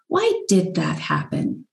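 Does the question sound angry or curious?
curious. It sounds open and curious.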